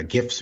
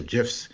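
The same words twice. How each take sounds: First: "gifs" with a hard g, as in "give". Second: "gifs" with a soft g, like "jifs". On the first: Poet offering both ways to say it, hard g. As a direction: say "gifs" starting with a hard g sound. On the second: Poet offering the other way to say it, soft g. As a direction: say "gifs" starting with a j sound. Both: Shown as a demonstration. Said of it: "gifs or gifs".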